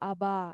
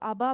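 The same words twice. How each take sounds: First: The final vowel is lengthened. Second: The final vowel is short. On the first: The speaker calls it right. "শেষের উচ্চারণটা একটু লম্বা হবে" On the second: The speaker calls it wrong. "শুধু আবা বলবো না"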